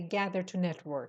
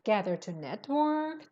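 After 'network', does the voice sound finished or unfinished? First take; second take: finished; unfinished. First: The voice falls to a final stop on network. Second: The voice stays up on network, sounding unfinished. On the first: The sentence is over. The speaker calls it wrong. "You don't see a full stop. So don't say gather to network" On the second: More of the sentence is still to come. The speaker calls it right. "read it as if there's more to come"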